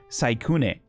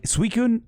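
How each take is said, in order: First: The first syllable sounds like 'sigh'. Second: The first syllable sounds like 'swee'. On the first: The speaker calls it right. "but it's Saikune" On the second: The speaker calls it wrong. "is how I would always pronounce it"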